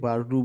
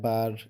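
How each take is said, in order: First: The word ends with a final vowel sound. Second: The word ends on a consonant, no final vowel. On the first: The reciter continues without stopping. "না থামলে বাররু বলবেন" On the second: The reciter stops after this word. "যদি থামতে চান তাহলে ইয়া বার এভাবে বলবেন"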